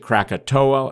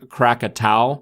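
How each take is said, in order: First: The name ends with an 'oh-ah' sound. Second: The name ends with an 'ow' sound. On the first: "some people pronounce it Krakatoa" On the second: "it's Anak Krakatau"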